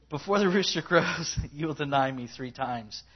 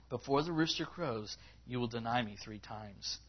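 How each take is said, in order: First: Echoing remembered voice. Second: Said in the usual way. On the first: Shown as a demonstration. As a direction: boom it out like a voice echoing in memory. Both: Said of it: "like, an echo thing".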